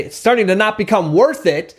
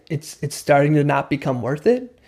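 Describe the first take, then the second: First: Pushy, higher-pitched and firm, falling at the end; agitating. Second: Mirror it back calmly, lifting gently at the end. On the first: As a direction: punch it out as if to provoke. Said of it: "it's gonna agitate". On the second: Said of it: "in a calm way". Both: Shown as a demonstration.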